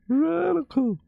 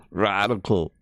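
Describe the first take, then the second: First: Very high surfer squeal. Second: Said in the usual way. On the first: Acted. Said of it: "They sound like they say stuff like".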